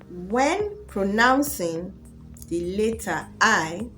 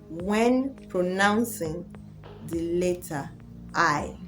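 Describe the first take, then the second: Both takes have the same delivery.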